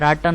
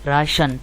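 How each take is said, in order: First: The middle consonant is a t sound. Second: The middle consonant is an sh sound. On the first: The speaker calls it wrong. "टी की आवाज़ आनी चाहिए ना, लेकिन ऐसा नहीं होगा" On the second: The speaker calls it right. "शन, एस एच की प्रोड्यूस करेगा"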